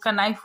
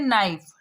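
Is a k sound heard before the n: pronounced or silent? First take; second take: pronounced; silent. First: A k sound is heard before the n. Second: The word begins directly with the n sound. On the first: "अगर हम लोग के का उच्चारण करेंगे तो कनाइफ हो जाएगा" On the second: "तो हम लोग उच्चारण क्या करते हैं? नाइफ"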